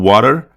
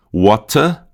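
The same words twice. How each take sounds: First: "water" American, tapped T and R ending; slow American "water" with a curled final R; American English accent. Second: "water" British, clear T, no final R; slow British "water" with open ending; British English accent. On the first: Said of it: "em inglês americano". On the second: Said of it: "Em inglês britânico". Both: Shown as a demonstration.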